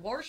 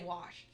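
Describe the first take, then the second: First: An r sound comes before the final sh. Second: No r sound comes before the final sh. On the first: This is a regional Western Pennsylvania pronunciation. "Warsh is very Pittsburgh, Western P A" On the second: This is the speaker's own everyday pronunciation. "I just say wash"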